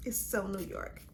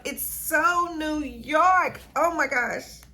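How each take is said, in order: First: Quiet swoon. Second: Loud, high, drawn-out rave; gushing delight. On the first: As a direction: say it softly to yourself, savoring it. Savoring the scent, then building up. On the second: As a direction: belt it out slowly, stretching SO and YORK. Third repeat, peak of delight. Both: Real, not acted.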